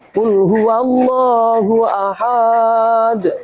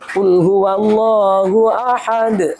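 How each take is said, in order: First: A short vowel is stretched out long. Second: The vowels keep their normal short length. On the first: The speaker calls it wrong. "harusnya pendek kok jadi panjang" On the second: The speaker calls it right. "asal sesuai tajwidnya nggak masalah"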